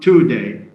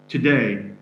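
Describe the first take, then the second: First: The stress is on the first syllable. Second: The stress is on the second syllable. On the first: The speaker calls it wrong. "It's not today" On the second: The speaker calls it right. "Second syllable is stressed"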